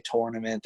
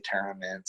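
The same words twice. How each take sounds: First: "tournament" with an "or" vowel, TOR-nament; Pennsylvania pronunciation. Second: "tournament" with an "ur" vowel, TUR-nament; Iowa pronunciation. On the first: Showing how Pennsylvanians say it, "tournament" as TOR-nament. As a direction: say "tournament" starting like "tore". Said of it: "we say tournament". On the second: Showing how Iowans say it, "tournament" as TUR-nament. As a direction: say "tournament" starting like "turn". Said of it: "they say tournament". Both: Shown as a demonstration.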